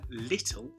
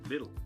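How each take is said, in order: First: The middle consonant is a crisp T sound. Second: The middle consonant is a soft D sound. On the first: "rather than do my T's" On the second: "I've turned them into a D sound"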